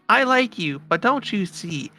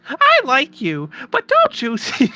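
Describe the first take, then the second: First: It is read in the speaker's own plain voice. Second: It is said in a put-on character voice.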